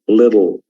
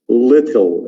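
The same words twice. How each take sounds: First: It has an American accent with a soft d-like t. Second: It has a British accent with a clear t. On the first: "but in America it becomes little" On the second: "this is little in England"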